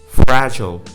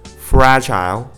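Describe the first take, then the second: First: The last syllable has no long I vowel. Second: The last syllable has a full long I vowel. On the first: "Fragile becomes fragile" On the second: "Fragile becomes fragile"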